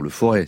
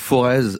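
First: The final z sound is silent. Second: The final z sound is pronounced. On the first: The speaker calls it right. "on ne prononce pas le Z final" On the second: The speaker calls it wrong. "enfin non, pardon"

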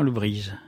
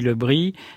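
First: The name is pronounced the Finistère way. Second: The name is pronounced the Paris way. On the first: This is how it is said in Finistère. "et dans le Finistère, Lebris" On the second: This is how it is said in Paris. "à Paris, Lebris"

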